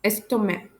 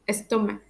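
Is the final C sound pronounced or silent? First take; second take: silent; silent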